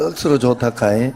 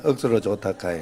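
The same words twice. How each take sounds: First: 억수로 punched, rising at the end, in Gyeongsang dialect; a lively Gyeongsang dialect 억수로 좋다카이 with a rising end. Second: 억수로 좋다카이 said through a laugh and falling at the end; Gyeongsang dialect, laughing. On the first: Pastor models a Gyeongsang greeting for the congregation, rising Gyeongsang lilt. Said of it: "경상도 말로". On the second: Pastor says it along with the congregation, chuckling in Gyeongsang dialect. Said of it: "자, 시작". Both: Shown as a demonstration.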